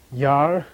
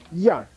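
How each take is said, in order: First: Yar drawn out in a low tone. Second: Yar short and strong, pitched up. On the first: Teacher models the unprefixed syllable, long low-toned Yar. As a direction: hold Yar long without pushing it up. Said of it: "Low tone, remember?". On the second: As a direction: push Yar up, short and firm. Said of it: "also gets strong". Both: Shown as a demonstration.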